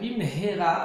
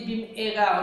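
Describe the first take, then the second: First: It is said with an h sound. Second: It is said without an h sound. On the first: Quickly. The speaker calls it right. "Bimhera avec un He" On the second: With a curse. The speaker calls it wrong. "tu dis avec un Aleph"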